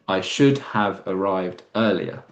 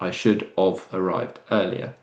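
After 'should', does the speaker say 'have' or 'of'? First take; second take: have; of. First: The word after 'should' is pronounced 'have'. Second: The word after 'should' is pronounced 'of'. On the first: The speaker calls it right. "it should be" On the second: The speaker calls it wrong.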